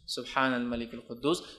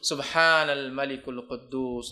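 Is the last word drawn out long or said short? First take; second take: short; long. First: The final word is said at normal length. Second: The final word Quddus is drawn out long.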